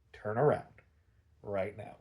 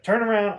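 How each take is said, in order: First: Low, soft acted menace; hushed, lowered mock-menacing order; deadpan order. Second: Loud, higher acted command; loud mock-villain order; barked order. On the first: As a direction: give the command quietly, as a deadpan villain threat. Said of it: "deadpanning the guards". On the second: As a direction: bark it like a villain giving orders. Joker orders the plane back.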